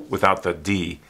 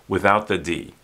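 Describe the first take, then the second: No difference in how they are said.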